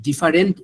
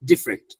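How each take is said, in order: First: ডিফারেন্ট in three syllables, "di-fa-rent"; full middle vowel in ডিফারেন্ট; unused full pronunciation. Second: ডিফারেন্ট in two syllables, "dif-rent"; own pronunciation. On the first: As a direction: sound out the "fa" in ডিফারেন্ট. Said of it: "ফা বলে না". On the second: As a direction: drop the middle vowel of ডিফারেন্ট. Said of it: "আমি ডিফারেন্ট এভাবে বলি". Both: Shown as a demonstration.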